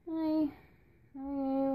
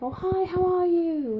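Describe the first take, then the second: First: It is said quietly and with little energy. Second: It is said loudly and with lively enthusiasm.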